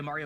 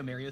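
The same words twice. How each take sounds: First: "Mario" with "ah", like "MAH-ree-oh"; open first vowel. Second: "Mario" with "air", like "MARE-ee-oh"; New York pronunciation. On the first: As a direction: say "Mario" starting with "mar". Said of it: "the Mario Mario thing". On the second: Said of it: "friends who say Mario". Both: Shown as a demonstration.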